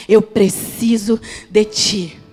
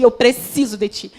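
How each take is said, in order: First: Drawn out very slowly, each word weighed; slow pleading prayer. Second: Said in the usual way. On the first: Acted. Preacher repeating the prayer to God, very slow and pleading. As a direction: plead it slowly, like a whispered vow.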